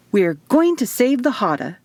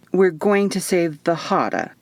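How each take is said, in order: First: Bright, proud declaration with a big smile; beaming announcement. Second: Flat, doubtful echo of her words; skeptical repeat. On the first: Isadora beaming at Eva about her mission, smiling declaration. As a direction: say it as if it were profound. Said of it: "she said with a blinding smile". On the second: Eva echoing Isadora's grand mission back, skeptical. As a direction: repeat it like you don't buy it. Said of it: "I repeated skeptically". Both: Acted.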